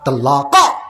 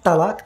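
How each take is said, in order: First: The final q sound ends with an echoing bounce. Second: The final k sound ends plainly, no echo. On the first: The speaker calls it right. "कलकला का काफ" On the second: The speaker calls it wrong. "ये कुत्ते का काफ है"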